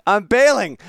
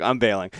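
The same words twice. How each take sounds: First: Higher, louder, mock-dramatic surrender; louder laughing give-up. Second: Said in the usual way. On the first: Real, not acted. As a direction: throw in the towel theatrically. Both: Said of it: "I wasn't prepared for it".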